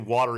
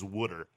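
First: It is said in a standard accent. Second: It is said in a Philly accent.

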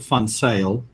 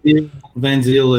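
First: The name is pronounced with Afrikaans sounds. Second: The name is pronounced with English sounds. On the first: "In Afrikaans, we would pronounce it" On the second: "is how you would say it in English"

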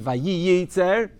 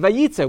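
First: Both yud sounds are pronounced in the middle. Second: Only one yud sound is pronounced in the middle. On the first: The speaker calls it wrong. "you don't say Vayitzer" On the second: The speaker calls it right. "we pronounce it only with the one yud"

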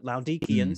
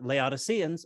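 First: The name is said in a Greek-style way. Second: The name is said in an anglicized way.

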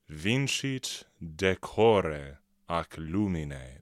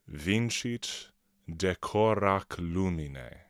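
First: Decore and ac are said as separate words. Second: Decore and ac are run together into one.

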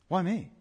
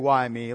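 First: It sounds amazed and wondering, not complaining. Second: It sounds like a complaint about misfortune.

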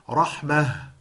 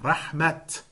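First: The word ends with a soft h sound. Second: The word ends with a clear t sound. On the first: "sometimes you'll see the word rahmah and you pronounce it rahmah" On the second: "at other times you see it and you pronounce it rahmat"

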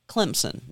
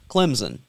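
First: The middle consonant is a clear s sound. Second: The middle consonant is a buzzing z sound. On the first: The speaker calls it right. "it's Clemson ... There is no Z" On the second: The speaker calls it wrong. "not Clemson ... There is no Z"

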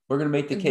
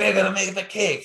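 First: It is said in the speaker's ordinary accent. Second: It is said in an imitated French accent.

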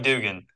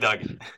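First: The first vowel is a long 'oo' sound. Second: The first vowel is a short 'uh' sound. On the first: The speaker calls it wrong. "We don't like Dugan" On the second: The speaker calls it right. "We like Duggan. There's two G's"

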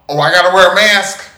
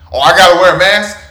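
First: It is said calmly, accepting the rule. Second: It is said indignantly, as an annoyed question.

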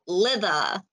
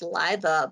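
First: The first vowel is a short 'i' sound. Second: The first vowel is a long 'eye' sound. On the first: "the hard TH sound, but like not I saying its name, the short I sound" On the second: "I thought it was pronounced Liva"

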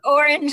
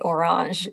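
First: The word is pronounced the English way. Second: The word is pronounced the French way.

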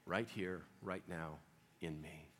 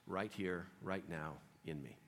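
No difference in how they are said.

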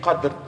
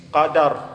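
First: No vowel is heard between d and r. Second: An a vowel is heard between d and r. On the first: The speaker calls it wrong. "Don't say Qadr" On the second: The speaker calls it right. "It's Qadr bil-Fath"

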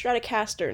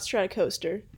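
First: The ending sounds like 'caster' with a short vowel. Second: The ending sounds like 'coaster' with a long vowel. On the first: The speaker calls it right. "it's Stratocaster" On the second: The speaker calls it wrong. "not Stratocoster"

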